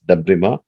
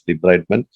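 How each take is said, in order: First: The word ends with a soft 'mah' sound. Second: The word ends with a clear 'ment' sound. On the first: "you pronounce it as debrima" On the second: "even though you write it as debridement"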